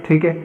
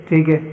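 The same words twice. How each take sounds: Both takes have the same delivery.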